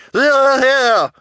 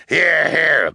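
First: Extremely high, loud squeal of assent; piercing high cheer, much louder; townswoman's cry. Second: High, loud assent; raised cheer from a townsman; townsman's cry. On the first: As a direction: shriek agreement as a townswoman. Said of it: "Missus Morrow cried". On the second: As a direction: cry out agreement heartily. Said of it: "Mister Lesko cried". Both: A narrator's reading.

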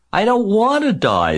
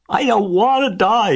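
First: Very high, loud tantrum scream. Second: Very high, loud tearful wail; moaning. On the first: Pig throws himself to the ground, screaming. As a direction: shriek it in panic. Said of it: "screamed Wilbur". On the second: Pig bursts into tears, high loud moan. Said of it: "he moaned". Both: A narrator's reading.

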